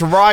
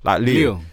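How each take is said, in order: First: It starts with a clear R sound. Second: It starts with a quick L-like sound. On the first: This is how people from London say it. The speaker calls it wrong. "man says Ryu" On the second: This is how people in Japan say it. The speaker calls it right. "they say it quick, like Liu"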